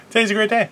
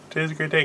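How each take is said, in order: First: Bright, higher opener to the camera; chirpy announcement. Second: Much softer, flat repeat of Today's a great day; deadpan repeat. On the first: Host cheerfully greeting the guys, pitched up. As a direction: sell the great day with a lifted voice. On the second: Host repeating his greeting to the guys, softly deadpan. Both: Shown as a demonstration.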